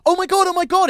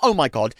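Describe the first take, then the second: First: High, loud mock excitement; hammed-up overeager squeal; way too enthusiastic. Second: Unimpressed echo of someone's gushing; irritated, much less excited repeat; mock exasperation. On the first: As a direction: gush like an overexcited newcomer. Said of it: "it's way too enthusiastic". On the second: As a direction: throw it back, exasperated. Acted irritated rebuff of gushing.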